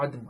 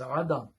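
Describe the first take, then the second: First: The d is followed by no vowel. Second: The d is followed by a short a vowel. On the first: The speaker calls it wrong. "It is not adam as he is continuously reading" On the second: The speaker calls it right. "the dal must have a zabar. It is adam"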